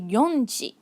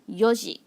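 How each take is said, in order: First: An n sound comes before the ji. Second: No n sound comes before the ji. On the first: The speaker calls it wrong. "we don't say yonji" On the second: The speaker calls it right. "we have to remove the n and just go yoji"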